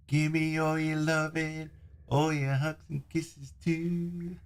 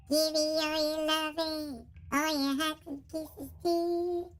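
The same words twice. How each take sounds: First: High, slow sweet-talking voice; sing-song plea for love; cutesy voice filter. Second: Squeaky filter, slightly high; chipmunk-ish squeaky voice. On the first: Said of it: "that's the voice that you get". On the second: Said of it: "If I put Squeaky on". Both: Shown as a demonstration.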